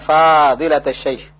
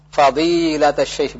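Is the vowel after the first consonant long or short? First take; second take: long; short. First: The vowel in the first syllable is long. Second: The vowel in the first syllable is short. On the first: The speaker calls it wrong. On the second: The speaker calls it right. "di sini fa-nya jangan dipanjangkan"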